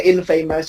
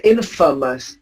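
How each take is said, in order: First: Infamous mispronounced as in-FAY-mous; wrong long A. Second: Infamous as IN-fuh-mus; correct short unstressed A. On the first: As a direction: say infamous like in plus famous. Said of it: "You don't say infamous". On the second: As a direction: stress IN and reduce the a in infamous. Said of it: "You say infamous". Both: Shown as a demonstration.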